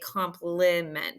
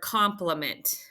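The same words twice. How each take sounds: First: The middle vowel is a full, clear vowel. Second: The middle vowel is a reduced 'uh' sound. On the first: The speaker calls it wrong. "we don't say compliment" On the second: The speaker calls it right. "I in the middle of a word could also sound like ah"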